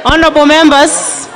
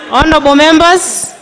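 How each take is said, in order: Both takes have the same delivery.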